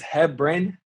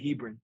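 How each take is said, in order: First: The first syllable does not sound like 'he'. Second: The first syllable sounds like the word 'he'. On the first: The speaker calls it right. "correctly is Hebron" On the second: The speaker calls it wrong. "they always say Hebron"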